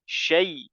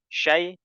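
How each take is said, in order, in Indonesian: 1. Bunyi vokal peluncurnya dibaca sempurna. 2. Bunyi vokal peluncurnya dipotong pendek. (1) "Kita bisa sempurnakan lagi" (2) "dia kurang sempurna"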